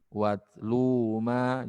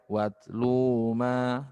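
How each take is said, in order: No difference in how they are said.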